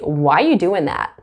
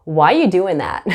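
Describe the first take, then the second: First: The word 'are' is dropped entirely. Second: The word 'are' is dropped entirely.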